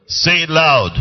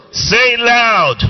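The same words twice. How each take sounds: First: Said in the usual way. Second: High, loud, shouted command. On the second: Shown as a demonstration. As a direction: shout it to rouse the congregation.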